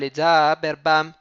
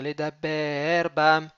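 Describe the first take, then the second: First: The stress falls on the second-to-last syllable of ledaber. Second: The stress falls on the last syllable of ledaber. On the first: The speaker calls it wrong. "Et c'est pas les dabber bam" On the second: The speaker calls it right. "Il n'est pas mille'ail"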